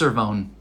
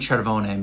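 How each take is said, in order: First: The name is said in an English style. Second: The name is said in an Italian style. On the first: This is how the family says it. "It's Cervone" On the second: This is how it would be said in Italian. "but that's Italian"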